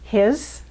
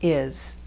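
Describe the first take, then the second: First: The word is said in full with h. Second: The word is reduced, dropping the h. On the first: "Instead of" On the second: "the pronunciation will be"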